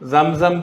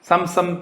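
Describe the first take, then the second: First: The word begins with a z sound. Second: The word begins with a plain s sound. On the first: The speaker calls it right. "സംസം തെളിനീർ എന്നാണ് സാധാരണ ഉച്ചരിക്കേണ്ടത്" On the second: The speaker calls it wrong. "നമുക്ക് ആ സം സം സം സംസം തെളിനീരെന്നാ പറയുക"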